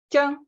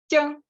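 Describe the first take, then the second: Both takes have the same delivery.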